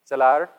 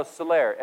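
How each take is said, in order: First: Salar said louder with a rolled French ending; a guess at the French word; French attempt. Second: Salaire said the French way, stress on the end; French pronunciation. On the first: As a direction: take a loud stab at "Salar" in French. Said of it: "but how do you do it in French?". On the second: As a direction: try "salaire" with a French lilt. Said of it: "Lane, how do you say that?". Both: Shown as a demonstration.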